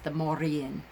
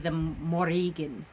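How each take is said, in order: First: Modern Irish style, rolled R, no G. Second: Old Irish Gaelic style, throaty G, rolled.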